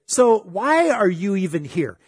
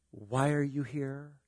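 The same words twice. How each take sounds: First: A touch of accusation; accusing. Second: Softer, slow and insinuating. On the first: Retold or imitated. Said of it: "it all depends on how you say things". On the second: Shown as a demonstration. Preacher shows how a question can incriminate, softer and slow. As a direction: let the doubt hang on each word. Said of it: "just by the way you say it".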